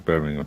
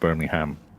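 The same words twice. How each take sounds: First: The last syllable is reduced to a weak 'um'. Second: The last syllable is a full 'ham' sound. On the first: The speaker calls it right. "Please say Birmingham" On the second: The speaker calls it wrong. "not Birmingham. ... Are you American?"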